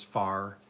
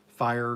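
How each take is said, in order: First: "fire" flattened into "far"; Oklahoma "fire". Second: "fire" with its full long-I vowel; standard "fire". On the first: Newcomer showing local speech, "fire" said as "far". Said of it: "fire down here in Oklahoma is far". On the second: Newcomer comparing local speech, "fire" in full. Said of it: "down here in Oklahoma is far". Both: Shown as a demonstration.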